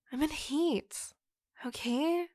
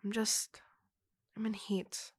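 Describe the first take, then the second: First: Higher, pushed-out confession; exasperated yell. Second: Calm and subdued after the yelling. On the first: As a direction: blurt it at him, fed up. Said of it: "I didn't mean to yell at you". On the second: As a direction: murmur it, deflated after the outburst. Softer repeat after apologizing for yelling. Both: Acted.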